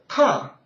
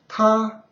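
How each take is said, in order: First: It is said with the fourth tone. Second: It is said with the first tone.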